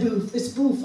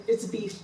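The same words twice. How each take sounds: First: "boof" with oo in place of ee; imitated mispronunciation. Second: Said in the usual way. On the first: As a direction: insist on "boof", rhyming with roof. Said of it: "all I always said". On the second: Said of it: "that's how they said it".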